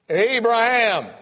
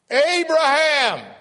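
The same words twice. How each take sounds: First: Loud, high and slow booming call; boisterous divine call. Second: Even louder, high, slow booming call; louder boisterous divine call. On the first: God calls Abraham from above: loud, slow booming shout. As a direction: call out from heaven. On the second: God calls Abraham a second time: louder, slower booming shout. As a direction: call again stronger from heaven. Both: Acted. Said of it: "I heard this boisterous voice".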